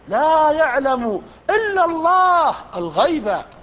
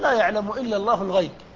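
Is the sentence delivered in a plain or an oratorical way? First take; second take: oratorical; plain. First: It is declaimed with forceful, oratorical emphasis. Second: It is read in a plain, level reading voice. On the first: "لكن الخطيب" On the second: "أما نحن نقول"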